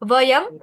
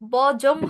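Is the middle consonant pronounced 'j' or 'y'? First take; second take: y; j. First: The middle consonant is a 'y' sound. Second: The middle consonant is a 'j' sound. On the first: The speaker calls it right. "উচ্চারণটা সবসময় ইয় এর মতোই হবে" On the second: The speaker calls it wrong. "বজম হবে না"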